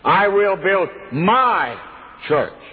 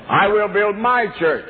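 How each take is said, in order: First: The word my carries the main stress. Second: The word church carries the main stress. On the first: It is this church and not someone else's. The speaker calls it right. "the emphasis should be on my" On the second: The focus is on the church itself. The speaker calls it wrong. "we always put the emphasis on church"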